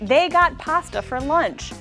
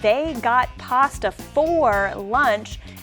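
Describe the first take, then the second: First: 'For' is reduced to a weak 'fur' sound. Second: 'For' is said fully with a clear vowel. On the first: "for turns into fur when said like this" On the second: "I could have said"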